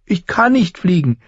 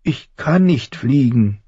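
First: High-pitched tearful denial; tearful protest. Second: High, slow whine; Bran whining. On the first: Boy tells teaching crow he cannot, tearful. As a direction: protest quicker, in a raised childlike voice. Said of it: "unter Tränen". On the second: Frightened falling boy tells the voice no, whining. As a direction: draw it out like a whimpering child. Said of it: "greinte Bran". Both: A narrator's reading.

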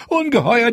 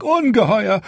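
First: Ungeheuer pitched even higher with a rising end; panicked repeat. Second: Panicked. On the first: Steward repeating himself in panic to the queen, higher rising cry. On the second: Steward panics over the dragons. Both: A narrator's reading.

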